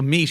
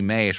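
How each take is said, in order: First: The vowel is a long ee sound. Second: The vowel is an ay sound. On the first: This is the modern pronunciation. "so meat" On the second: This is an older pronunciation. "used to be mate"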